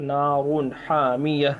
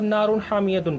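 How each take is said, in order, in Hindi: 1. आखिरी शब्द एक खुले 'a' पर खत्म होता है। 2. आखिरी शब्द 'tun' की आवाज़ पर खत्म होता है। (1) "अगर नहीं मिलाएंगे तो नारुन हामिया" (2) "मिलाकर जब पढ़ेंगे तब नारुन हामियतुन पढ़ेंगे"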